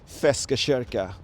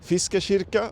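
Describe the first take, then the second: First: Gothenburg dialect, first vowel is 'e'. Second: Standard Swedish, first vowel is 'i'. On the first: "Gothenburgians have a certain way to pronounce" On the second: "the correct way to say it in uh, Swedish"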